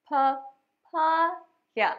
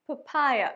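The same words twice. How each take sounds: First: papaya split very slowly as "pa... paa... ya"; syllable by syllable. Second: Said in the usual way. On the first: Shown as a demonstration. Teacher modelling a new word for learners, syllable by syllable. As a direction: stretch each syllable of papaya with pauses between.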